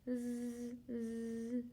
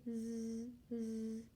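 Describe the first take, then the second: Both takes have the same delivery.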